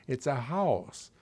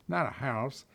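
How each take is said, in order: First: "house" slow, with a full rounded vowel; corrected diphthong. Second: "house" with a twangy Southern diphthong; mimicked wrong vowel. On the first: Retold or imitated. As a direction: stretch "house" as a speech teacher would. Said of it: "I didn't know what a diphthong was". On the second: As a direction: mimic the hillbilly way of saying "house".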